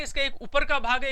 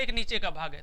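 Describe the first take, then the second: First: ऊपर said a little higher and rising; raised for the upper part. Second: Lowered for the lower part. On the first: A teacher shows the upper part with a raised voice. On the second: A teacher shows the lower part with a dropped voice. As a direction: drop the voice on नीचे to show the lower part. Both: Shown as a demonstration. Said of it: "तो ये दो part है".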